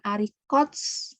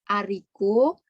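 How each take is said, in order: First: The word ends with an audible 'ts' sound. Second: The word ends on a vowel, no final 's'. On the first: The speaker calls it wrong. "Jadi bukan arikots" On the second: The speaker calls it right. "konsonan akhir nggak dibunyikan"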